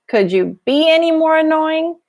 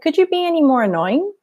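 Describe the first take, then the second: First: It sounds sarcastic, with heavy emphasis on be. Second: It sounds like a plain, sincere question. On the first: The speaker is saying the listener is annoying. "There I'm being, I mean mean" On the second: The speaker is really asking something. "That sounds like an actual question"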